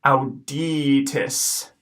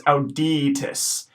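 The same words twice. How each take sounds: First: "auditus" slowly, long i as ee, short i; slow echo of "auditus"; slow Latin pronunciation. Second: "auditus" at normal pace; first take of "auditus"; modelled Latin word. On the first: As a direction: stretch "auditus" out for students. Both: Shown as a demonstration. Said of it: "first I is gonna be pronounced E".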